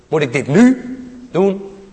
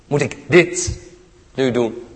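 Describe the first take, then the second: First: The stress falls on the word nu. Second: The stress falls on the word dit.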